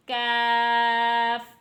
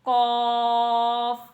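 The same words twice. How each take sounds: First: काफ drawn out slowly, thin and light at the front; काफ said slow and light, thin kaf. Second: कॉफ said slow and heavy, Quranic qaf. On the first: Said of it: "काफ को आपने बारीक पढ़ना है". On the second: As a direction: stretch कॉफ with a heavy, full back-throat q. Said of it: "इस कॉफ को आपने मोटा पढ़ना है". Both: Shown as a demonstration.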